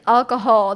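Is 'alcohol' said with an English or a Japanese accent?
English. It is said with a plain English accent. "instead of like alcohol"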